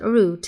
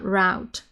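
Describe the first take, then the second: First: The word is pronounced the British way. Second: The word is pronounced the American way. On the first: "British people will always, almost always call it route" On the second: "and not route"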